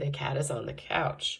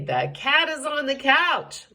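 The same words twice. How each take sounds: First: It is said in a calm, matter-of-fact tone. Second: It is said in an excited, animated tone. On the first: It simply answers a question. "If you're just telling" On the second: The cat is somewhere it should not be. "If you want to show excitement"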